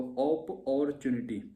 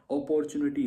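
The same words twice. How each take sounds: First: अपॉर्चुनिटी split slowly into op-or-chunity; broken into syllables. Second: Said in the usual way. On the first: Shown as a demonstration. Teacher showing students how to break up a spelling, अपॉर्चुनिटी syllable by syllable. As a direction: say अपॉर्चुनिटी chunk by chunk. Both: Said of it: "spelling को break कर लो".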